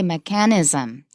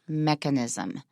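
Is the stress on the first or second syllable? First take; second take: second; first. First: The stress is on the second syllable. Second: The stress is on the first syllable. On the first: The speaker calls it wrong. "A lot of people say mechanism" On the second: The speaker calls it right. "but it actually is mechanism"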